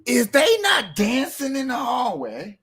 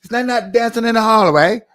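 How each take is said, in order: First: High, drawn-out rhetorical question; mock incredulous question. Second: Loud, high mock British question. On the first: Host questions audience about dancing kids, mock incredulous. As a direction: stretch it high in your own accent. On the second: Shown as a demonstration. Host plays a Brit asking about dancing, mock British accent. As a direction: ask it in a hammed-up British accent. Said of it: "let me put on my British voice".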